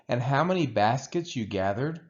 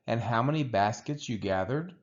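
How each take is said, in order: Both takes have the same delivery.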